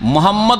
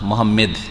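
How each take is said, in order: First: The last syllable is said as 'mad'. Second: The last syllable is said as 'med'. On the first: The speaker calls it right. "মোহাম্মদ নামটা উচ্চারণ করতে পারে না" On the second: The speaker calls it wrong. "মোহাম্মেদ বলবে"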